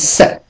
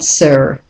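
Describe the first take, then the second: First: The vowel is reduced to a weak schwa. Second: The vowel is a full, strong sound. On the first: The speaker calls it right. "becomes the weak form, becomes sir" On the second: The speaker calls it wrong. "not sir"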